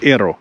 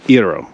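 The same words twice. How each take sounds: First: Said in the usual way. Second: Iro said with a faint Latino accent, vowels a bit rounder; a hint of Latino accent on Iro, almost unnoticed; slight Latino accent. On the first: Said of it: "I don't know why I said that". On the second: Real, not acted. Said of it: "I said that with a slight Latino accent".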